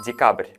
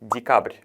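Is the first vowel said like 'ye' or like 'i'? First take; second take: ye; i. First: The first vowel sounds like a clear 'ye'. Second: The first vowel sounds reduced, close to 'i'. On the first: The speaker calls it wrong. "데카브르가 아니라" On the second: The speaker calls it right. "얘가 아니라 이로 발음하는 게 맞습니다"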